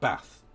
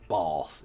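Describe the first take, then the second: First: Bath is said in a northern English accent. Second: Bath is said in a posh southern English accent.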